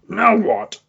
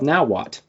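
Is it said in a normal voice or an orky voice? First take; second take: orky; normal. First: It is said in a gruff orky voice. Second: It is said in a normal speaking voice.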